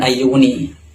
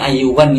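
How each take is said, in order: First: The word ends with an i sound. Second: The word ends with an an sound. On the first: The speaker calls it wrong. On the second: The speaker calls it right. "yang benar ini ayuwan ya bacanya"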